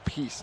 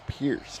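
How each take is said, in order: First: The name is said with no r sound. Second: The name is said with an r sound. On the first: The speaker calls it right. "it's actually Peace" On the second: The speaker calls it wrong. "not Pierce"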